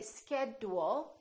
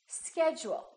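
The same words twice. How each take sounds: First: The consonant before 'u' is a plain d. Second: The consonant before 'u' sounds like j. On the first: The speaker calls it wrong. "We don't say" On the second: The speaker calls it right. "We say"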